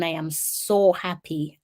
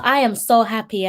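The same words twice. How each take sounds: First: Warm, slow, sincere. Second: Excited. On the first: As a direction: say it slowly, meaning it. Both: Real, not acted.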